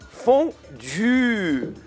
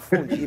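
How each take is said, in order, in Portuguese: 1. É falada com pronúncia francesa. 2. É falada com pronúncia brasileira. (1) "É fondue" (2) "deixa eu avisar os brasileiros que não é fondue"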